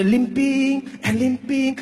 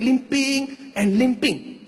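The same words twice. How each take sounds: First: Drawn-out, dragging each word like a limp; slow, heavy, limping rhythm. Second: Very slow, dragged-out words; limping, dragging delivery. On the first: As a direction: stretch it like a bad leg. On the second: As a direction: drag it like a limp. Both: Shown as a demonstration. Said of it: "this was how the uncle was limping".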